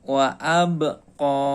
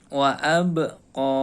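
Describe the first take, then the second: The two takes are said the same way.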